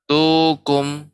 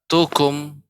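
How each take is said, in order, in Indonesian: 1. Bunyinya dipanjangkan terlalu lama. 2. Bunyinya dibuat pendek tanpa dipanjangkan. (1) "Jangan sampai tadi masih terdengar tukum" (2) "Yang benar tukum"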